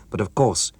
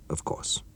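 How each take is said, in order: First: Said in the usual way. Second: Soft, breathless whispered repeat; hushed whispered echo. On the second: Acted. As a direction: echo it back under the breath. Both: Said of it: "echoed Doctor Wagner".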